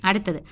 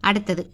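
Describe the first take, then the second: No difference in how they are said.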